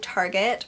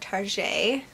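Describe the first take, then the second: First: It is said with the ordinary English ending. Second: It is said with a French-style, fancy ending.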